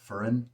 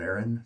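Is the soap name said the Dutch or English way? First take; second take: Dutch; English. First: The name is said with a Dutch pronunciation. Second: The name is read out with English letter sounds. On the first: It is how native speakers say the name. The speaker calls it right. "in the native Dutch type tongue" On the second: It is how the letters look to an English reader. The speaker calls it wrong. "that's just kind of what my brain says when it looks at the letters"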